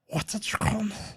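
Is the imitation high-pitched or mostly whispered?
high-pitched. It is voiced and reaches a high pitch. The speaker calls it right. "That's better"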